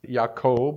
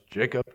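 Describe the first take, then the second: First: The name is said in a non-Gentile pronunciation. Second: The name is said in the Gentile pronunciation.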